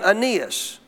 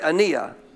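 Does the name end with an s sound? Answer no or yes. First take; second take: yes; no. First: The name ends with an s sound. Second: The name ends without an s sound.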